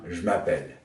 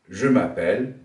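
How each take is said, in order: First: The E in je is dropped. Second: The E in je is pronounced.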